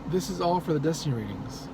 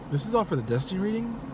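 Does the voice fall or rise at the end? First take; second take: fall; rise. First: It is said as a statement, not a question. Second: It is said as a question. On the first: The speaker calls it wrong. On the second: The speaker calls it right.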